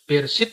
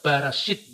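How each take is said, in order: First: The word sounds like be-re-shit. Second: The word sounds like ba-ra-shit. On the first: This is the usual reading of the word. "Bereshit itu dibaca" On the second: This is the Samaritan reading of the same word. "dibaca Barashit"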